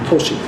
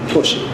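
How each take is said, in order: The two takes are said the same way.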